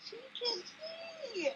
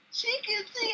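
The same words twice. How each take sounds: First: High, slow and soft, about to cry; choked up. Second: High, thrilled exclamation; jumping-for-joy cry, pitched up; excited. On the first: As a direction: squeeze it out through tears, slowly. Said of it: "Let me say this without crying again". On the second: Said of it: "I was jumping up and down like". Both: Retold or imitated.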